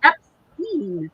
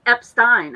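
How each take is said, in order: First: Put-on Epstein said as "EP-steen", rhyming with teen; first try at the name. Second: Epstein said as "EP-stine", rhyming with fine; corrected pronunciation. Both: Shown as a demonstration. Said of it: "'cause you pronounce the last letter".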